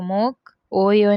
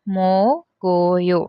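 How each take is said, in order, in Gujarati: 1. "k" ધ્વનિ સ્વરથી અલગ રહે છે. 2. વ્યંજન આગલા સ્વર સાથે જોડાય છે. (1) "तो मोक ओयो नहीं बोलेंगे"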